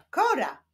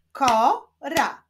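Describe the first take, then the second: First: Said in the usual way. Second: KO, pause, RA; syllable by syllable. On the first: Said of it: "Powstaną z nich wyrazy". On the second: Shown as a demonstration. Teacher continuing the syllable exercise, Ko-ra split apart. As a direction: say "Kora" as two separate, firm syllables. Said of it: "łączmy sylaby".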